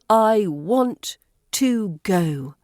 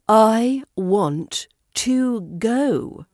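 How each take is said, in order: First: The word 'to' has a full, strong vowel. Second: The word 'to' has a full, strong vowel.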